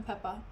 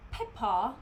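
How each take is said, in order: First: Said in the usual way. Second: Mock British "Peppa" with an open final "ah"; "Peppa" in a put-on British accent, end lengthened and rising. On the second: Shown as a demonstration. Teasing the coworker who called them Peppa Pig, mock British accent. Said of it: "my British accent is not good either".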